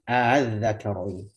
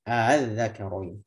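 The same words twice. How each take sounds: Both takes have the same delivery.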